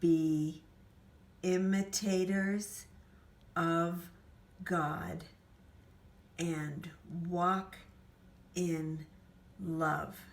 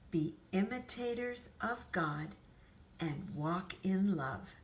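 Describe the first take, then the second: First: It is spoken very slowly. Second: It is spoken at an ordinary speed. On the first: "let's go really, really slowly" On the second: "regular speed, regular sound in our voice"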